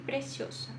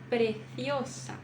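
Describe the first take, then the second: First: The c is pronounced as a plain s sound. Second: The c is pronounced as a lisped th sound. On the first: "Eu pronunciaria assim" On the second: "Preso o som"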